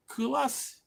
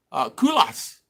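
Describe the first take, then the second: First: Culas said higher as a softer, rising, doubtful question; unsure pronunciation. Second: Culas read straight off with a falling tune; first reading. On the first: Unsure how to say a viewer's town name, trying Culas again. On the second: First reading a viewer's town name aloud, plain. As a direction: say Culas as if just reading it off the screen. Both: Shown as a demonstration. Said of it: "I don't even know how to say it".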